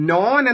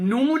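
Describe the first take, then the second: First: The vowel is a long 'o' sound. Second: The vowel is a long 'u' sound. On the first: This is the older, original pronunciation. "നോൻ എന്നായിരുന്നു" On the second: This is the later, current pronunciation. "നൂൻ എന്നാണ്"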